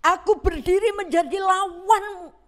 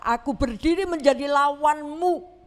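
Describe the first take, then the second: First: Louder stern angel. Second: Firm declaration from the angel; stern angel. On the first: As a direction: repeat it louder and higher, warning. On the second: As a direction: stand in his way, firm. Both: Acted. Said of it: "malaikat itu berkata".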